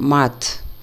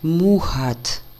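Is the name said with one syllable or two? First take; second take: one; two. First: The name has one short syllable, no h-sound. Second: The name has two syllables with an h-sound. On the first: The speaker calls it wrong. "чем мат" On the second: The speaker calls it right. "звук на самом деле больше как мухат"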